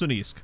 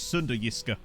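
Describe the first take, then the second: First: The name ends in a consonant sound. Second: The name ends in a vowel sound. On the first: The speaker calls it right. "I think it's pronounced Sunniisk" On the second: The speaker calls it wrong. "I used to pronounce it as Sundayiska"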